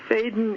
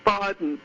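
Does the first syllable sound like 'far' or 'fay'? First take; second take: fay; far. First: The first syllable sounds like 'fay', without R. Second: The first syllable sounds like 'far', as in father. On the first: The speaker calls it wrong. "getting annoyed with everyone for saying Faden" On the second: The speaker calls it right. "R as in father"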